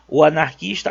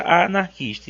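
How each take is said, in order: First: "o" marked before anarquista, ending on a rise; stress on masculine article. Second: Long "a" before anarquista, falling at the end; stress on feminine article. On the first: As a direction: lean on "o" in "o anarquista". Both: Shown as a demonstration. Teacher showing the article marks gender, stressed article. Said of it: "só que o artigo, ele vai indicar qual é".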